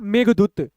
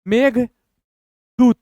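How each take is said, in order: First: The word is said smoothly without any pause. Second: The word is split with a pause between parts. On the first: "दोनों को मिलाएंगे" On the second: "दो भाग में तोड़ के पढ़ेंगे"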